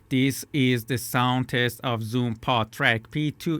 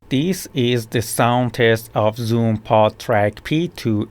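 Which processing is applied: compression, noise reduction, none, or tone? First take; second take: tone; compression. First: The tone of the voice is processed. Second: The voice's loudness range is compressed. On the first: "while the tone effect is turned on" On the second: "while the compression effect is turned on"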